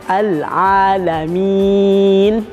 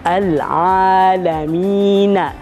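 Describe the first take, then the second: First: The word ends on the n with no vowel. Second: The word ends with a short vowel after n. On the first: The reader stops at this word. "karena diwakafkan atau berhenti" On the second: The reading continues without stopping. "Pada penulisannya kita membacanya"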